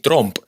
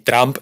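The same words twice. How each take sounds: First: The vowel sounds like a Spanish o. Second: The vowel sounds like a Spanish a. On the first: "en Latinoamérica mucha gente pronuncia también mal con O" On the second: "en España mucha gente pronuncia mal con A"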